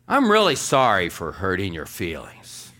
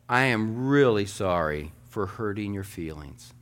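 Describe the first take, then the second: First: Louder, brusque "I'm really sorry"; insincere apology. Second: Gentle, measured "I am really sorry"; sincere apology. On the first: Pastor showing a congregation the wrong way to apologize, brusque. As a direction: throw the apology out forcefully, leaning hard on "sorry". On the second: Pastor showing a congregation the kind way to apologize, sincere. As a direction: apologize as if you mean it, unhurried. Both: Shown as a demonstration. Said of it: "say this same sentence two different ways".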